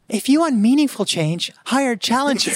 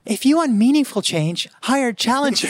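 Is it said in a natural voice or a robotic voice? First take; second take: robotic; robotic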